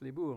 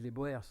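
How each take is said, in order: First: The name is said as one syllable. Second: The name is said as two syllables. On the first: This is the proper pronunciation of the name. The speaker calls it right. "mais ça se prononce les bourgs" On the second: This is how French speakers commonly say it. The speaker calls it wrong. "les Français disent les boers"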